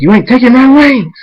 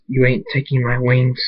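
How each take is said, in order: First: Loud, high yell rising on the wings; defiant shout. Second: Said in the usual way. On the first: A narrator's reading. Hunter refusing to lose his wings, defiant shout. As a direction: yell your refusal at full voice.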